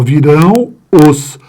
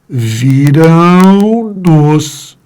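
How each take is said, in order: First: The nasal sound breaks before a plain vowel pronoun. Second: The nasal sound flows straight into an n pronoun. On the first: The speaker calls it wrong. "o ar estava saindo pelo meu nariz. Eu tenho de parar" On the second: The speaker calls it right. "O ar estava saindo pelo nariz e continuou"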